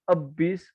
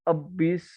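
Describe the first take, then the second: The two takes are said the same way.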